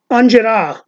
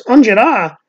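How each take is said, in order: First: Put-on higher Italian American accent, word run together; Uncle Louie. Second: Put-on higher questioning echo in Italian American accent; friend's echo. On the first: Quoting the comedian's word of the day, Italian American accent. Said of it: "he says things like". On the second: Comedian's friend repeats the word, Italian American accent. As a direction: query "Angela" back in a mock Italian American accent. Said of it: "his friend goes".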